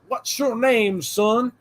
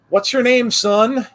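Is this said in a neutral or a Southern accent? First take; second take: Southern; neutral. First: It is said in a Southern American accent. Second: It is said in the speaker's ordinary accent.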